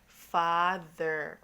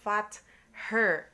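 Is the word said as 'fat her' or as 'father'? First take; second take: father; fat her. First: It is said as the single word father. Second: It is split into 'fat' and 'her'. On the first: The speaker calls it right. "We say father" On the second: The speaker calls it wrong. "If this is sounded out the way it's supposed to, it will be fat her, and we don't say fat her"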